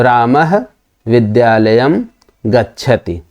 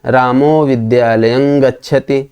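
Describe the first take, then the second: First: रामः, विद्यालयं, गच्छति each set apart by clear pauses; separate words. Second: रामो विद्यालयं गच्छति run together with no pauses between words; joined reading. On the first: Teacher reads रामः विद्यालयं गच्छति word by word with pauses. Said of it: "जब प्रथम वाला पढ़ेंगे". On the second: Teacher reads रामो विद्यालयं गच्छति as one joined phrase. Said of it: "दोनों के पढ़ने की शैली में अंतर होगा". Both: Shown as a demonstration.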